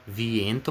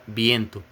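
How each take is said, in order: First: The word begins with a V sound. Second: The word begins with a B sound. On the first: The speaker calls it wrong. "se escreve V" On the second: The speaker calls it right. "mas se fala viento"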